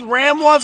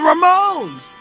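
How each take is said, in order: First: The name is split into ram plus ones. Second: The name is said as one word, ra-moans.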